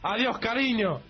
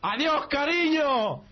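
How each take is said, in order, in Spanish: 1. Se dice más alto que la primera vez. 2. Se dice al volumen más alto. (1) "más alto tú" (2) "te dice más alto y tú"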